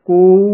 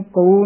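First: Loud, held ਕੋ as "ko-oo"; long double vowel. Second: ਕੋ opened to "kau"; AU vowel. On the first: Teacher shows correct reading, ਕੋ long and loud. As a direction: stretch ਕੋ from O towards U, louder. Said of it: "ਇਸ ਦਾ ਸ਼ੁੱਧ ਉਚਾਰਨ ਹੈ". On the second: Teacher shows the mistake, ਕੋ sounding like "kau". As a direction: widen the vowel of ਕੋ into AU. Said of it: "ਨਹੀਂ ਬੋਲਣਾ". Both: Shown as a demonstration.

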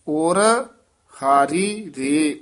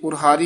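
First: ਔਰ, pause, then ਹਾਰੀ ਰੇ; separated words. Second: ਔਰ ਹਾਰੀ fused quickly with no gap; run-together words. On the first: Teacher shows the wanted reading, ਔਰ split from ਹਾਰੀ. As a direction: keep ਔਰ apart from ਹਾਰੀ. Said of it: "ਵੱਖਰਾ ਪਾਠ ਕਰਨਾ ਹੈ". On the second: Teacher shows what to avoid, ਔਰ ਹਾਰੀ run together. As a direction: slide ਔਰ straight into ਹਾਰੀ. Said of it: "ਇਕੱਠਾ ਪਾਠ ਨਹੀਂ ਕਰਨਾ". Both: Shown as a demonstration.

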